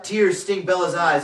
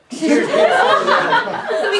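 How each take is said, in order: First: Said in the usual way. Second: High, slow, overwrought wail; mock weepy reading; hammed-up tearful narration. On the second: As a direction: overdo the tragedy. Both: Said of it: "Does someone wanna grab some water?".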